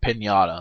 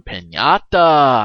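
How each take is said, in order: First: Said in the usual way. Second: "piñata" drawn out slowly and said louder; stress on piñata. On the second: Shown as a demonstration. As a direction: lean hard on "piñata", stretching it out. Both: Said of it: "I mean, piñata".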